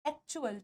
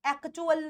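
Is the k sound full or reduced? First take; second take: reduced; full. First: The k sound is only half pronounced. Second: The k sound is fully pronounced. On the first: The speaker calls it right. "आधा क" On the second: The speaker calls it wrong. "एक्चुअल नहीं"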